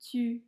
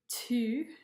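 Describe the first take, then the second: First: The t is released without a puff of air. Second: The t is released with a puff of air. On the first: The speaker calls it right. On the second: The speaker calls it wrong. "Instead of"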